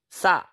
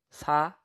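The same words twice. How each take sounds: First: "sa" with a tense, forceful s; strong accent. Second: Said in the usual way. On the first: Shown as a demonstration. Teacher showing the difference, "sa" with strong accent. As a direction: hit the s of "sa" hard and louder. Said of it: "add strong accent to it". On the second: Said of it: "here's the difference".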